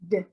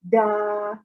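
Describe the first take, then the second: First: The d sound is said alone without a vowel. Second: The d sound is followed by an uh vowel. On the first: The speaker calls it right. "We just want to make the sound d" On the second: The speaker calls it wrong. "We don't want to make the sound uh"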